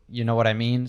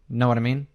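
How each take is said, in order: First: Every word of the phrase is said fully. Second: The first word is dropped and sounds run together. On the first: "it goes from you know what I mean" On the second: "to know what I mean"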